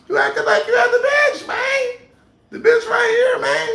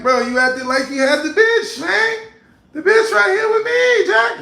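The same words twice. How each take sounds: First: Very high, loud mock shout. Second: Mocking higher and louder; taunting him in a raised voice. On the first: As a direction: crank it way up into a squealing taunt. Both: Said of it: "go to the high voice".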